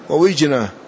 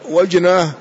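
First: The word begins with wi. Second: The word begins with wa. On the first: "والكسر" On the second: "والفتح فيهما"

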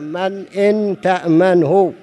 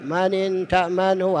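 First: The glottal stop is clearly pronounced before 'in'. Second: The glottal stop is dropped and the words run together. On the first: The speaker calls it right. "لابد أن يكون" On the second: The speaker calls it wrong. "هذا خطأ"

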